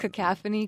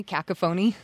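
First: Cacophony said ka-KAF-oh-nee; cacophony with stress on the second syllable, as written; mispronounced. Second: Cacophony said KAK-uh-foh-nee, first-syllable stress; mispronounced. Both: Shown as a demonstration. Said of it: "That was what I thought it was".

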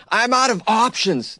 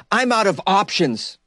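First: Higher, slow whining "I'm out of options"; whiny mock lament. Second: Whiny mock quote. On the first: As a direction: drag it out high like a sulking complaint. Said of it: "That just sounds like he went off the rails". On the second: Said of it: "one more quote from Ollie".

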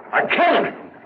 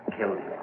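First: Anguished outburst. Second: A near-silent, much softer admission; hushed confession. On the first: Guilty man cries out his confession to the constable, high and anguished. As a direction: burst it out, breaking down. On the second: Guilty man first breathes his confession to the constable, hushed. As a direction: let it slip out under your breath. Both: Acted.

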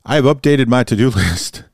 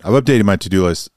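First: Laughing nervously mid-sentence; embarrassed chuckle through the words. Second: Said in the usual way. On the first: Real, not acted. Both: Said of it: "That's nervous laughter".

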